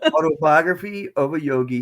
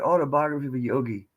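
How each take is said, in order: First: The title is said slowly and deliberately. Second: The title is said at a normal speed.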